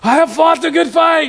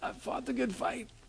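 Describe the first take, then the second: First: It is loud, forceful and rousing. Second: It is weak, breathless and worn out. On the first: A triumphant battle cry. "we all consider it like a Braveheart moment" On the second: He is exhausted at the end of his life. "He's probably not saying it like that. He's probably like"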